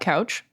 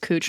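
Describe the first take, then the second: First: The vowel rhymes with pouch. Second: The vowel rhymes with pooch. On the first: The speaker calls it wrong. "not Couch" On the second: The speaker calls it right. "why it's Cooch"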